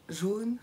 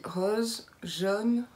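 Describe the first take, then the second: First: Said in the usual way. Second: "jaune" with southwestern French open o; southwestern French accent. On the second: Shown as a demonstration. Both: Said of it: "Vous l'entendez quand je dis rose, jaune".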